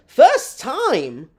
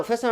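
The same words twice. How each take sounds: First: Loud, high incredulous echo. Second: Said in the usual way. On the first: Real, not acted. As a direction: throw it back in loud, high-pitched disbelief. Incredulous echo of viewer's message.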